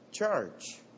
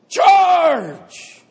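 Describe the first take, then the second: First: It is said flatly, without much energy. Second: It is said loudly, with strong energy.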